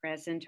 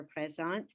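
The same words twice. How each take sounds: First: Said in the usual way. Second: Présent à la française; French présent. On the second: Shown as a demonstration. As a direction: present said the French way, stress on the last syllable. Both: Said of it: "if you could simply say".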